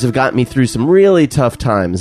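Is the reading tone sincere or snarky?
sincere. It is read in a sincere, earnest tone. The praise is treated as genuine. "I can't do that. She's being sincere"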